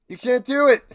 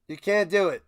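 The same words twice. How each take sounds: First: Louder, higher outraged repeat; raised voice at the refs; loud protest. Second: Said in the usual way. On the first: Real, not acted. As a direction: hammer the complaint home.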